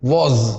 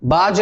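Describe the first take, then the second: First: The word begins with a w sound. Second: The word begins with a b sound. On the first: The speaker calls it right. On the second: The speaker calls it wrong.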